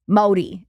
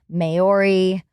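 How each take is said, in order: First: The middle consonant sounds like a D. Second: The middle consonant is a clear R sound. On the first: This is how a New Zealander says it. "Brock says it like moldy, ... Modi is how he says it" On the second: This is how most people say it. "People say Maori"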